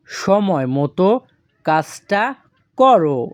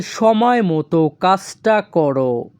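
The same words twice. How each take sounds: First: "সময় মতো", "কাজটা", "করো" with pauses between; word by word. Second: Said in the usual way. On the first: Shown as a demonstration. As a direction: break "সময় মতো কাজটা করো" into three separate pieces. Teacher repeats it in separate pieces.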